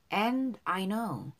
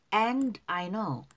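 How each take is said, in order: Both takes have the same delivery.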